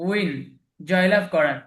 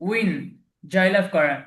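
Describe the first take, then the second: No difference in how they are said.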